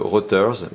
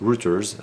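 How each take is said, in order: First: It is said with a French pronunciation. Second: It is said with an English pronunciation.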